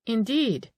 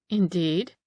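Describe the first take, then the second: First: "Indeed" starting higher, falling at the end. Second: "Indeed" as a question, rising at the end. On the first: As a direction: drop "Indeed" from high to a closed finish. Second, cooler reaction to the answer. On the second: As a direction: lift the end of "Indeed" in stiff inquiry. Stiff questioning reaction to the lady. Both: A narrator's reading.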